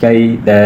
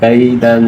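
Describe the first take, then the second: First: The word ends on an open vowel. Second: The word ends with a nasal n sound. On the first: "वक़फ़ किया जाए तो अलिफ पढ़ा जाएगा" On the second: "दो ज़बर दन"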